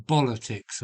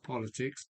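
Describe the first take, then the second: First: "bolitics" said with a b for the p, a bit louder; jokey bolitics. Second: Said in the usual way. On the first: Shown as a demonstration. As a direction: swap the p in "bolitics" for a playful b. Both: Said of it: "I call it".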